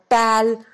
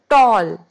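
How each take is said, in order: First: The vowel is not an aw sound. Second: The vowel is an aw sound. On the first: The speaker calls it wrong. "we don't say it tal" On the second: The speaker calls it right. "We call it tall"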